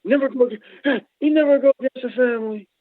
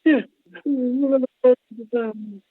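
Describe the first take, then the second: First: High put-on mobster voice; mobster line. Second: Mobster line. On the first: Joking that the man should never go against the family, mock mobster. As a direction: quote the mob movie line with relish. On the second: Retold or imitated. Repeating the mob movie line for the host, mock mobster. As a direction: quote the mob line again, savouring it. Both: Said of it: "Should've been against me".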